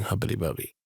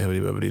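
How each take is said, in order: First: "Hubbity Bubby", second word clipped to BUB-ee; "Hubbity Bubby", no -ity on Bubby; shortened Bubby ending. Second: "Hubbity Bubbity", both words rhyming on -ity; quick "Hubbity Bubbity" with the -ity kept in Bubbity; full Bubbity ending. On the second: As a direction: say "Hubbity Bubbity" with BUB-ih-tee in three syllables. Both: Shown as a demonstration. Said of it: "despite the title being Hubbity Bubby".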